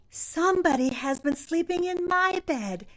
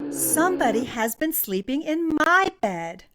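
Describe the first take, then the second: First: It is said in a loud, shrill little voice. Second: It is said in a medium, grumbling voice.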